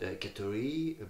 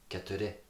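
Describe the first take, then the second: First: The word is drawn out with changing pitch. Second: The word is said straight with level pitch. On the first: The speaker calls it wrong. "Not keturi" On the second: The speaker calls it right. "very like straight"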